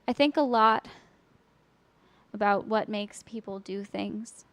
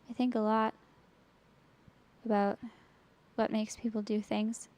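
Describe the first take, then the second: First: It is delivered with exaggerated, lively dynamics. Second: It is delivered flat, with little dynamic variation. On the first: "That sounds too much" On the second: "And that's boring"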